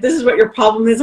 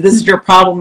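First: Said in the usual way. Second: Louder, punching the word "This"; confrontational. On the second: Retold or imitated. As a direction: get right in her face with it. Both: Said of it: "And I just slammed into her".

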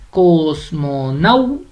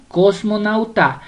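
First: "cosmonauta" slow, cos-mo-NAU-ta, stress on "nau"; split into syllables. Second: Said in the usual way. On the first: Shown as a demonstration. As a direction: break up "cosmonauta" slowly, leaning on "nau". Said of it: "la sílaba tónica es nau". ("cosmonauta" lenta, en sílabas, con fuerza en "nau") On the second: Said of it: "usted la va a separar".

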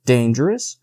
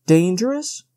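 First: Said in the usual way. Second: Higher, mocking rise on Dangerous; incredulous. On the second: A narrator's reading. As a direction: scoff at the word Dangerous. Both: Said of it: "smiling in his superior way".

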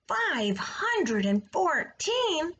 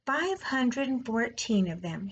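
First: High, slow amazed question; a pig who can't believe the number; astonished. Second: Said in the usual way. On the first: A narrator's reading. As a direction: stretch it out in disbelief. Wilbur astonished at egg count.

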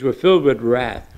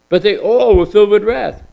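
First: Said in the usual way. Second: All lifted high and louder; stress on all. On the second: Shown as a demonstration. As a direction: hit the word all hard. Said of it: "All, everybody".

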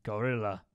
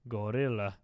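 First: Low gorilla grunt voice. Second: Low grunted gorilla call; gorilla grunts. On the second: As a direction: grunt it out again, ape-like. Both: Pretend. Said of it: "I started doing the gorilla sound".

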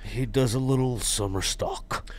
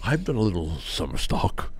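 First: Whisper. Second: Soft, unvoiced mock boast whisper. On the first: Pretend. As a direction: breathe the line out as a whisper. Ribbing a friend about acting.

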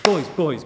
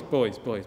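First: Put-on louder call, Boys, boys pitched up to break up the fight; Boys, boys called loudly over the clash. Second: Said in the usual way. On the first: Princess stops sword fight.

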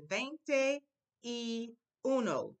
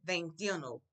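First: Y uno drawn out apart from veinte; y uno, slow and spread out; slow separate words. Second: Veintiuno run together quickly; Veintiuno, one quick word. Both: Shown as a demonstration. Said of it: "I'll say it quickly".

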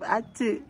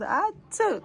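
First: Said in the usual way. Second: Imitating the child. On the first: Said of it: "Say no instead of". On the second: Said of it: "she goes".

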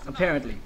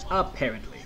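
First: Said in the usual way. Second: Apparently in a put-on different voice; mock voice. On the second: Shown as a demonstration. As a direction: drop into a funny other voice on Apparently. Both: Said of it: "you already know what that is apparently".

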